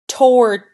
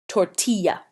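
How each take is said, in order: First: The double L is said as an L sound. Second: The double L is said as a Y sound. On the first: The speaker calls it wrong. "If you were to say that with a bad accent, you might say it like this" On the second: The speaker calls it right. "Those double L's make a y sound"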